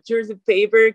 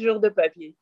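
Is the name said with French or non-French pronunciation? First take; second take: non-French; French. First: The name is said with a non-French pronunciation. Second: The name is said with a French pronunciation. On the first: Speakers of other languages say it this way. The speaker calls it wrong. "cuando lo dicen como George the Paper, como en otros idiomas, se escucha chistoso" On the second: This is how it is said in French. The speaker calls it right. "pronunciado así en francés se dice Jour de Papier"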